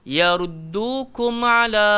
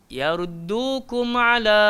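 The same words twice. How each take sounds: No difference in how they are said.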